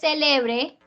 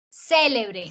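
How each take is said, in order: First: The stress is on the middle syllable. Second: The stress is on the first syllable. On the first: "sería grave" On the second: "Esdrújula"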